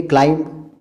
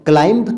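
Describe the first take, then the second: First: "क्लाइंब" said as "klaim", B silent; correct pronunciation. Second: "क्लाइंब" with the final B sounded; wrong pronunciation. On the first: Teacher introducing a silent-B word, correctly pronounced. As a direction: end "क्लाइंब" on the M. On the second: Teacher showing how not to say it, mispronounced. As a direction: release a clear B ending "क्लाइंब". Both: Shown as a demonstration. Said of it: "तो नहीं कह रहे".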